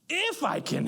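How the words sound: It sounds indignant and offended. How dare anyone doubt that help is possible. The speaker calls it wrong. "he's got some righteous indignation"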